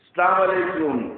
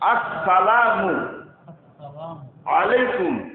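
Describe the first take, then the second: First: It starts directly with 'salam', no 'as' syllable. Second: It starts with a firm 'as' before 'salamu'. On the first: The speaker calls it wrong. "এটা সহি উচ্চারণ হইল?" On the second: The speaker calls it right. "সহি উচ্চারণ হলো আসসালামু আলাইকুম"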